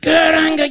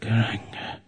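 First: It is said very loudly. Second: It is said fairly quietly.

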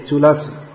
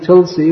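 First: The word is said with a vowel between l and s. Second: The word is said without a vowel between l and s. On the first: This is the Sanskrit form used in the verse. The speaker calls it right. "when we say in the Sanskrit verse, we should say Tulasi" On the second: This is the everyday Hindi or Bengali form. The speaker calls it wrong. "which is common Hindi and Bengali translation"

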